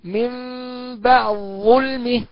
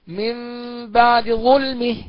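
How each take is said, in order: First: The d merges fully into the following sound. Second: The d keeps a quick, reduced vowel. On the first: "لو أضغمنا الدال في الظاء على مذهب المتقدمين تقرأ هكذا" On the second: "ومذهب المتأخرين نقرأ بالاختلاس هكذا"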